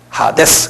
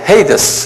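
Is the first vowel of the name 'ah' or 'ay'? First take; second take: ah; ay. First: The first vowel sounds like 'ah'. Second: The first vowel sounds like 'ay'. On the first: This is the original Greek way of saying it. "그대로 발음대로 하면 하데스예요. 헬라 말로는" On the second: This is the English way of saying it. "영어로는 헤이데스 그러는데"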